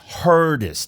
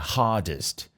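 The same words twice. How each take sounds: First: It is said with an American accent. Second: It is said with a British accent. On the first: "Perceba também que ele fala hardest" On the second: "Se ele fosse britânico, ele falaria hardest"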